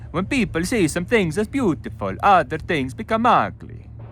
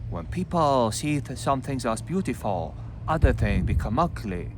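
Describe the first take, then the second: First: It is read in an Italian accent. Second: It is read in a Chinese accent. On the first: "You can do Italian" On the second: "read with the Chinese accent"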